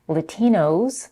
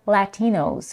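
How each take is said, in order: First: The first vowel is reduced to a schwa. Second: The first vowel sounds like the vowel in cat. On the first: "with the first vowel reduced to a schwa" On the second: "where the first vowel is as in cat"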